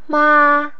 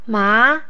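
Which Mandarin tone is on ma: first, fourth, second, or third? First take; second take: first; second. First: The pitch stays high and level. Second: The pitch rises from middle to high.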